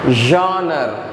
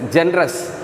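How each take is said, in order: First: It is not read as spelled, gen plus res. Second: It is read as spelled, gen plus res. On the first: The speaker calls it right. "the exact pronunciation of this word is genre" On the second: The speaker calls it wrong. "you should not read as a genres, G E N, gen, R E S, res"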